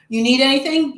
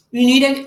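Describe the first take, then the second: First: Said in the usual way. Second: Talking with food in mouth; words round a bite of food; mouth full. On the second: Real, not acted. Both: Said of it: "I have food in my mouth".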